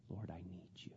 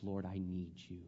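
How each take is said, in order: First: Whispered prayer. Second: Quiet prayer. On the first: Preacher whispering his plea to God. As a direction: whisper "Lord, I need you." unvoiced. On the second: Preacher voicing humble prayer. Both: Acted.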